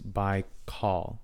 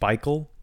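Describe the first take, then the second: First: The second syllable has an 'aw' vowel. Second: The second syllable has a vowel other than 'aw'. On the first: The speaker calls it right. "most would agree that it's Baikal, like aw" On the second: The speaker calls it wrong. "instead of Baikal"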